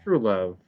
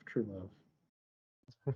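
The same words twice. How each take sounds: First: Said in the usual way. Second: Softer, swooning "true love"; mock-romantic swooning "true love" trailing off quietly; drawn-out sighing true love. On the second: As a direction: let "true love" melt away in a soft mock swoon. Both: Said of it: "It's like".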